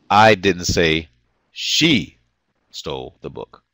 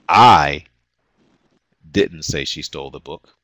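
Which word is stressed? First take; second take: she; I. First: The word "she" is stressed. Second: The word "I" is stressed.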